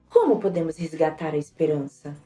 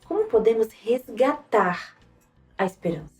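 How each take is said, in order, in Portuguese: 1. A palavra "como" recebe a maior ênfase. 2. A palavra "resgatar" recebe a maior ênfase. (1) "primeiro foi em como" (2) "e depois em resgatar"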